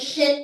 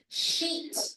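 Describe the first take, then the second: First: The vowel is a short I sound. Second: The vowel is a long E sound. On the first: The speaker calls it wrong. "hindi siya sheet of paper ... Not short I vowel sound" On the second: The speaker calls it right. "It's a long E vowel sound"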